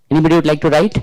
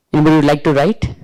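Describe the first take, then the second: No difference in how they are said.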